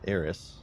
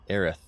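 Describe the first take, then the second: First: The name ends with a hissing s sound. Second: The name ends with a lisped th sound. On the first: "the sane people who say Eris, because that's how it's spelled" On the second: "like they have a lisp"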